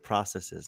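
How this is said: It is said with a non-Canadian, American-style pronunciation. The speaker is not from Canada. "She doesn't have the Canadian accent. She said processes"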